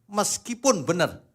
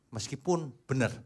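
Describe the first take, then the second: First: "meskipun benar" louder and higher; preacher repeating "meskipun benar" with force; emphatic repeat. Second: Said in the usual way. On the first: Real, not acted. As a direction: hammer home "meskipun benar" the second time.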